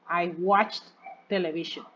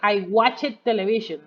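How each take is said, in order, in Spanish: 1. La terminación del verbo es un sonido T simple. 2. La terminación del verbo es una sílaba extra 'ed'.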